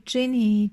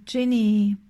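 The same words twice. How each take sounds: First: Calling "Ginny" out into the dark woods; a long call of "Ginny"; the worker calls his horse by name. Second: Echo. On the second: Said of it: "rief das Echo". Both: A narrator's reading.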